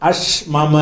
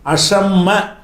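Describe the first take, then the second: First: The two m sounds are pronounced separately. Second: The two m sounds merge into one doubled m. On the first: The speaker calls it wrong. "அஷ்மம சொல்லலாமான்னா சொல்ல முடியாது" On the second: The speaker calls it right. "அஷ்மம என்று சொல்லாம எப்படி சொல்லணும்?"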